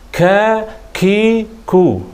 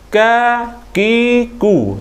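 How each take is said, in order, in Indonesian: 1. Bunyi k memiliki hembusan napas yang kuat dan berlebihan. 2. Bunyi k sama sekali tidak memiliki hembusan napas. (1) "jangan kakiku, ha, itu salah lah" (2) "tak ada angin langsung, itu salah juga"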